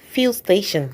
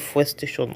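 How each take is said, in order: First: It is said imitating other people's pronunciation. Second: It is said in the speaker's plain pronunciation. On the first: "I pronounce it like some people" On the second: "Either you call it fuel station"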